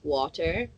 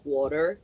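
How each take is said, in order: First: English accent, with a clear T sound. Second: American accent, with the T sounding like D. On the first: "in England we say like water" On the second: "in Philly they say like water ... You pronounce T's as D's"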